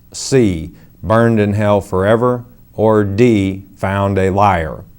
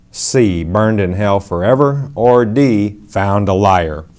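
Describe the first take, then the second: The two takes are said the same way.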